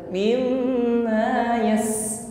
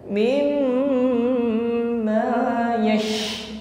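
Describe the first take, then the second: First: The air hisses narrowly at the tongue tip. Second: The air spreads audibly through the whole mouth. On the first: The speaker calls it wrong. "bukan sekedar mimma yas. Yas bukan berdesis di ujung lidah" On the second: The speaker calls it right. "tekanan udaranya lebih nampak jelas"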